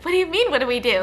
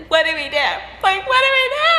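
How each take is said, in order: First: Quick, puzzled retort; mildly incredulous, rushing the question; baffled reply. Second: Mock wail climbing high and loud; hammed-up tearful panic, building; imitating bawling. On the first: Retold or imitated. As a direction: question it fast, thrown off. Baffled reply to bawling sister. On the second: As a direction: imitate a sister bawling in despair. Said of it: "she starts bawling even harder".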